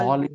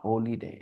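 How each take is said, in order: First: The first part sounds like 'holl'. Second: The first part sounds like 'holy'. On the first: The speaker calls it right. "हॉलीडे, it's not होली डे" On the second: The speaker calls it wrong. "इट्स not होली डे"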